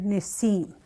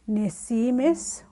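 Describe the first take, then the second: First: The word is said with its ending dropped. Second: The word is said in full, all syllables. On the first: "or you'll hear Nisim" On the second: "saying my younger sibling"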